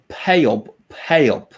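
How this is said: It is said in a Skåne accent. "in Skåne they would say"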